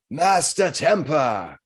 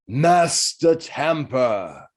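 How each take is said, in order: First: Slow booming call, pitched higher; booming cat voice. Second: Slow, drawn-out booming call; booming cat voice. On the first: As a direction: call the name again, slow and echoing. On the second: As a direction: boom the name out, very slow, a bit higher. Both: Acted. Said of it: "a booming voice echoes from the cat's mouth".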